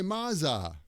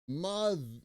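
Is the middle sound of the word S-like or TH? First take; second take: S-like; TH. First: The middle sound is S-like, tongue kept in. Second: The middle sound is TH, tongue between teeth. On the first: The speaker calls it wrong. "the T H sound is going to sound like an S" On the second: The speaker calls it right. "your tongue is going to come right, right there"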